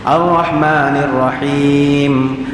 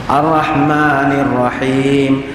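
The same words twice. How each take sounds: The two takes are said the same way.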